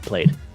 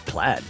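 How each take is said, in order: First: The vowel is long, rhyming with made. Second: The vowel is short, rhyming with bad. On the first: The speaker calls it wrong. "it comes out played every single time" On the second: The speaker calls it right. "I know it's plaid"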